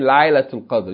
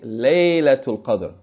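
First: The first vowel sounds like 'eye'. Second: The first vowel sounds like 'ay' in day. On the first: The speaker calls it wrong. "You don't say Laylatul Qadr" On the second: The speaker calls it right. "which is pronounced May. Like in Laylatul Qadr"

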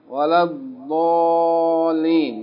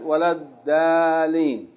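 First: The d sound is heavy and emphatic. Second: The d sound is light and plain. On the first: The speaker calls it right. "You say it in Al-Fatiha when you say what?" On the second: The speaker calls it wrong. "Not walad-daaleen"

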